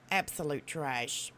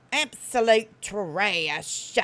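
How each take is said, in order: First: "Absolute trash" low, soft and slow; lowered, unhurried scorn; low dismissal. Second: "Absolute trash" loud and hugely drawn out; loud, slow punch on both words of "Absolute trash"; scornful verdict. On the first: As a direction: drop it quietly as a final verdict. Same verdict, muttered as afterthought. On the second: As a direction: stretch "trash" out slowly and forcefully. Pronouncing scornful verdict on someone. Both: Real, not acted.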